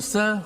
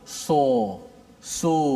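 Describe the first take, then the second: First: The s sound is thin and flat. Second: The sound is made with rounded lips. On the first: "huruf tu bersifat dengan mendatar, nipis" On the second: "dia sebut so so ha, dengan mulut"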